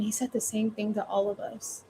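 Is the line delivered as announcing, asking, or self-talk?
self-talk. It sounds like private talk to oneself. The speaker is reflecting privately. "Or you could say it to yourself"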